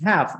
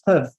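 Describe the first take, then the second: First: The word has its full vowel. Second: The word is short with a schwa vowel. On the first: "That's how we say like I have a book" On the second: "a short version, which is more of a schwa"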